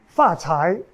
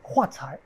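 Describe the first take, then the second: First: The first word begins with an F sound. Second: The first word begins with an H sound. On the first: This is the standard Mandarin form. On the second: This is the Min form, which lacks the F sound.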